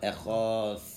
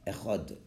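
First: The word ends with a long, stretched th sound. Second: The word ends abruptly with a short hard stop. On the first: "is pronounced as a TH. That can be stretched out" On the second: "The letter is end so fast"

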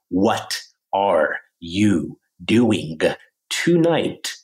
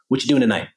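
First: Each word is said fully, including 'are'. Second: The words run together and 'are' is dropped. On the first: This is the textbook form learners expect. "if you're learning English from a textbook and you're expecting me to say" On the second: This is how people really talk casually. "if I was like, yo"

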